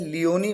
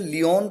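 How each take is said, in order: First: It ends on a long ee vowel, three syllables. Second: It ends on a consonant, with two syllables. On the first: "कई इसे लियोनी pronounce करते हैं" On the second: "कई लोग इसे लियोन pronounce करते हैं"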